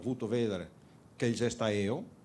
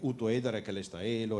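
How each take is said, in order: First: Bassano dialect, with the v sounds kept. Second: Veronese dialect, with the v sounds dropped. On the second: "parlando con la L come tutti quanti e magari senza la V"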